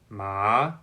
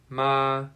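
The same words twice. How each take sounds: First: The pitch rises from middle to high. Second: The pitch stays high and level. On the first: "The second tone is rising" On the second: "The first tone is high"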